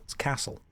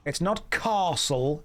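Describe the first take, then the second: First: "castle" with a long ah, whispered and soft; "castle" with a long ah sound; posh castle. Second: "castle" with a short flat a, slowed; the Midlands "castle" said slowly; "castle" said the northern way; wrong castle. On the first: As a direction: RP "castle" said as "carstle", softer. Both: Shown as a demonstration. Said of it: "but you still say Bath".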